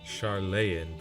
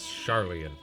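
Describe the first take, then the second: First: The name ends with a long 'een' sound. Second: The name ends with an 'ee-an' sound. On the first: The speaker calls it wrong. "It really looks like Charlene" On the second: The speaker calls it right. "That's how you pronounce it"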